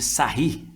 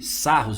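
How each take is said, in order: First: The name ends with an 'ee' sound. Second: The name ends with an 'os' sound. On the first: This is the more correct form. The speaker calls it right. "a pronúncia mais correta seria sarri" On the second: This is the form many people use. The speaker calls it wrong. "Muita gente usa sarros"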